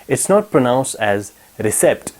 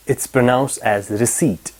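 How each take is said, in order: First: "recept" said with a hard p, re-SEPT; wrong pronunciation. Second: "receipt" said re-SEET, silent p, slowly; slow, careful "receipt" with no p; correct pronunciation. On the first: Teacher showing students the wrong way, recept with a p. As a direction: sound out the p in "recept". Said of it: "It's not pronounced as recept". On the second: Teacher modelling the right way, slow silent p. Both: Shown as a demonstration.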